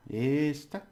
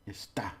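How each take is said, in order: First: "Esta" high, with a held "Es"; stress on first syllable. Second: "Está" with a short stab on "tá"; stress on final syllable. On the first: Teacher correcting himself on this, stress on first syllable. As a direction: lean long on "Es" in "Esta". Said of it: "You just hold it a bit". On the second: Teacher contrasting it is, stress on final syllable. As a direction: end "Está" on a short jab. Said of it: "like a little stabbing at the end". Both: Shown as a demonstration.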